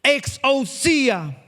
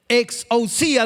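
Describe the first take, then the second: First: Exousia drawn out very slowly; preacher lingering over the Greek word Exousia; slow emphatic. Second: Exousia with the I stressed; teaching the Greek word Exousia, accent on the I. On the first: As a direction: savour each syllable of Exousia. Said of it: "acento en la I". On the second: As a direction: lean on the I in Exousia. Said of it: "de nuevo, acento en la I". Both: Shown as a demonstration.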